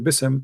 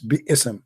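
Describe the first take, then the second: First: It is said as one syllable, Bism. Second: It is said as two syllables, Bi-ism. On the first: The speaker calls it right. "they have to say Bism" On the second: The speaker calls it wrong. "that is not nice"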